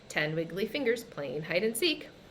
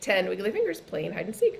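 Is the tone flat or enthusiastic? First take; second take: flat; enthusiastic. First: It is said flatly, with little enthusiasm. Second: It is said with lively enthusiasm.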